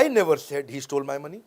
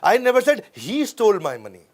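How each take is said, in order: First: The stress is on the word I. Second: The stress is on the word he.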